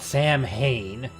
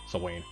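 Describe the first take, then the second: First: It is said like 'sam hain'. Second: It is said like 'swain'. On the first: The speaker calls it wrong. "Not Sam Hain" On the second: The speaker calls it right. "I think that's how you, you're supposed to pronounce the name"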